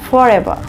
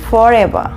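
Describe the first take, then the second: No difference in how they are said.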